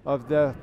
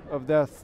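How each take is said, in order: Both takes have the same delivery.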